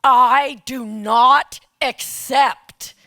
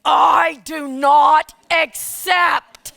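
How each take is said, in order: First: Slow, loud, every word spaced; slow and loud, with full resolve; firm refusal. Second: Slow, loud, spaced, with a laugh breaking through; firm refusal, laughing. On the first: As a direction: refuse the nomination deliberately, word by word. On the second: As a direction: repeat the refusal even more firmly. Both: Retold or imitated. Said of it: "And I said".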